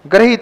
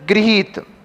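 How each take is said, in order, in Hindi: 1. पहला अक्षर 'gra' की तरह बोला जाता है। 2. पहला अक्षर 'gri' की तरह बोला जाता है।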